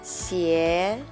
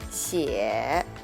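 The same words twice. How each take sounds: First: The pitch rises from mid to high. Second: The pitch dips low, then rises. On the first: "I will pronounce the second tone first" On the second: "third tone"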